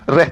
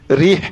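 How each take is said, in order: First: The vowel after the r sounds like 'eh'. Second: The vowel after the r sounds like 'ee'. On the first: The speaker calls it wrong. "Reh tak betul lah" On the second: The speaker calls it right. "Dia kena bunyi rih"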